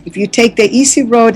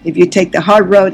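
First: Easy lifted and leaned on; stress on easy. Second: Hard pressed a little firmer; weight the word "hard" as the mirror of the line; stress on hard. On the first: Speaker giving advice to listeners, stress on "easy". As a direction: lean into the word "easy" to set up the twist. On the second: Speaker giving advice to listeners, stress on "hard". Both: Real, not acted.

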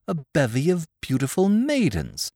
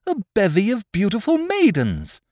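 First: Said in the usual way. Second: Higher, delighted outburst; marveling exclamation. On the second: Acted. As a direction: gasp it out in wonder. Frederick marvels at the maidens.

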